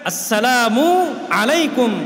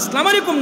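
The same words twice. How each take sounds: First: The 'mu' vowel of assalamu is clearly pronounced. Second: The 'mu' vowel of assalamu is not clearly pronounced. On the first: The speaker calls it right. "শুদ্ধ করে সালাম শিখবেন।" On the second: The speaker calls it wrong. "অশুদ্ধ সালাম না"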